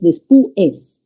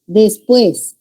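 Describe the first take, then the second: First: Después wrongly split as des-PU-es, slow; separated vowels. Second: Said in the usual way. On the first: Shown as a demonstration. Teacher showing students the wrong split, des-PU-es. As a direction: break the diphthong in después, stressing the u. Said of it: "no es después".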